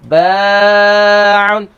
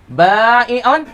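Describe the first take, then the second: First: No glottal stop follows the long vowel. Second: A glottal stop follows the long vowel. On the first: The weak letter is changed into alif. "Tukar waw dan ya tu wi jadi alif. Bukan tukar hamzah" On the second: The weak letter is changed into hamzah. "hamzah terlebih ringi"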